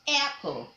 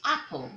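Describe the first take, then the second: First: The first vowel sounds like 'air'. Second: The first vowel sounds like 'ah'. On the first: The speaker calls it right. "you call it apple" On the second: The speaker calls it wrong. "You don't call it apple"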